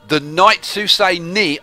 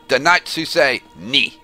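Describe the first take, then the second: First: It is said in a plain English accent. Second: It is said in a put-on French accent.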